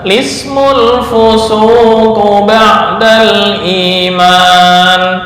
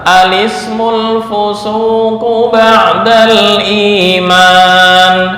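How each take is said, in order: First: It starts directly with the 'l' sound. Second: It starts with an 'a' vowel before 'l'. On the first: "hamzah wasal dibuang, memulai dari lam yang dibaca kasrah" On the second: "memulai dengan hamzah yang dibaca fathah"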